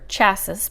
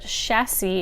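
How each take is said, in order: First: The word is said with an English pronunciation. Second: The word is said with a French pronunciation. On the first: "I would probably say chassis" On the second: "chassis is the correct French, French pronunciation"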